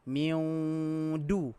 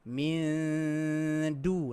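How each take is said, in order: First: The nasal hum turns into a w sound. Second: The nasal hum moves toward the d sound. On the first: The speaker calls it wrong. "Dia tak boleh kita tengah dengung tu huruf waw. ... Tak boleh" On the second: The speaker calls it right. "nampak dia pergi dekat dal"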